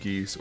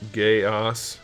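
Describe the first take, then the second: First: The name is said the common way. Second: The name is said like 'Gaius'. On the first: "I don't think anybody pronounces it that way" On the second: "I believe it's actually pronounced Gaius"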